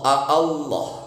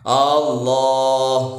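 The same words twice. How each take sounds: First: The first vowel is kept short. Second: The first vowel is drawn out long. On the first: It states the word plainly, not as a question. The speaker calls it right. "aslinya Allah" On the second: It turns the word into a question. The speaker calls it wrong. "Huruf hamzah yang pertama sering dibaca panjang"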